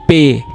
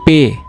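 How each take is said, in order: First: The letter name ends in an ay sound. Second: The letter name ends in an ay sound.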